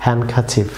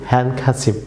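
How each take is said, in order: Both takes have the same delivery.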